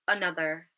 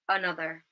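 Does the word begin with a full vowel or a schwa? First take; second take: schwa; schwa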